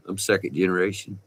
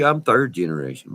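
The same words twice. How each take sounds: First: Said in the usual way. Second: "third" pushed out high and louder as a correction; emphatic correction. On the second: Real, not acted. Oil field man correcting his family history, stressing "third" loudly. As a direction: correct yourself firmly, hitting "third".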